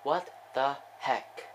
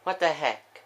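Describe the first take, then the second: First: Slow, word-by-word repeat; slow disbelief. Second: Higher, louder baffled outburst; startled exclamation. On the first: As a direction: spell out the bafflement one word at a time. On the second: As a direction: blurt it out in real disbelief. Baffled reaction to the big play. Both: Real, not acted.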